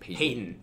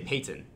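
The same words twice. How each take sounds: First: The middle t sound is softened, not fully released. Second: The middle t sound is clearly and fully pronounced. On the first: This is how people from Ohio say it. "That's an Ohio thing" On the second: This is how people elsewhere say it. "Other people say Peyton"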